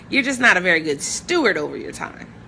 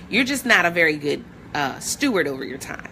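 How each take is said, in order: First: It is said in a gentle, nice tone. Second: It is said in a blunt, direct tone.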